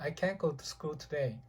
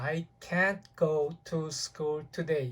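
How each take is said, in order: First: The sentence is said quickly. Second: The sentence is said at a normal pace. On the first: "빨리 말하면" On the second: "이 말을 이렇게 합니다"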